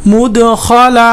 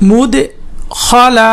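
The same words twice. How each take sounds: First: "মুদখালা" chanted in one piece; chanted, intone "মুদখালা" without a break; connected chanted demo. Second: "মুদখালা" split by a pause after মুদ; broken-up pronunciation demo. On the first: (chanted, "মুদখালা" একটানা সুর করে) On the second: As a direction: chant "মুদ", pause, then "খালা". ("মুদখালা" ভেঙে ভেঙে উচ্চারণ) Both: Shown as a demonstration. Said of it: "উচ্চারণ করে পড়বেন".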